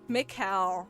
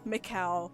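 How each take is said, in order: First: The name ends with an ow sound. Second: The same.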